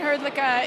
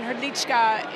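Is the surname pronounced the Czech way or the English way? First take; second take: English; Czech. First: The surname is said with an English-style pronunciation. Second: The surname is said with a Czech pronunciation. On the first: "that's not the natural pronunciation of my name" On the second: "My background's Czech, and Hrdlička is the appropriate"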